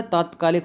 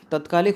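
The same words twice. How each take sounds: First: "तात्कालिक" opened with a long "taat"; correct pronunciation. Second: "तात्कालिक" opened with a short "tat"; short-vowel pronunciation. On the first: Teacher models the right spelling, "तात्कालिक" with long first vowel. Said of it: "तात्कालिक सही है". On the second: Teacher queries a spelling, "तात्कालिक" with short first vowel. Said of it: "तात्कालिक होता है". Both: Shown as a demonstration.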